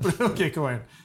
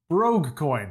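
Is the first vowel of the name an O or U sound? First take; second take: U; O. First: The first vowel sounds like a U. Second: The first vowel sounds like an O. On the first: "an O can often be a U as well" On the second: "I'm gonna pronounce this like an Irish would"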